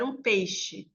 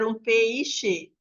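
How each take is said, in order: First: Said in the usual way. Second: "peixe" drawn out as pe-i-xe with a full i; pronúncia separada errada. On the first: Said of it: "Não, é comprar um peixe". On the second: Shown as a demonstration. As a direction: overpronounce "peixe" slowly in three syllables, pe-i-xe. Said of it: "A gente não fala". ("peixe" dito devagar, pe-i-xe, com i forte)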